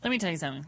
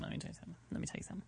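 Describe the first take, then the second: First: Said in the usual way. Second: Unvoiced breathy whisper. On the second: Shown as a demonstration. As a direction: whisper it like a secret. Repeats phrase, then whispers it.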